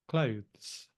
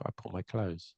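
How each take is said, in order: First: Clothes with a clear voiced th before z; careful clothes with th. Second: Clothes said like close, no th; casual clothes as close. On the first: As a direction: say clothes as kloʊðz, slowly. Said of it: "you're saying it correctly". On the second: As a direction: say clothes as kloʊz, relaxed. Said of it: "most people say". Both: Shown as a demonstration.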